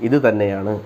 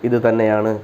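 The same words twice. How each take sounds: No difference in how they are said.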